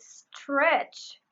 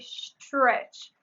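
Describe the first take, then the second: First: The word begins with a plain s sound. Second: The word begins with an sh sound.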